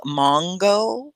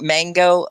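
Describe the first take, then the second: First: "mongo" said MAHNG-go; "mongo" with a back AH, drawn out; British-style variant. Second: "Mango" said MANG-go with the A of cat; "Mango" with the vowel of "hat"; American pronunciation. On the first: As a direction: say "mongo" with an open AH first vowel. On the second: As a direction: say "Mango" with a short front A. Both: Shown as a demonstration. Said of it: "it's just different".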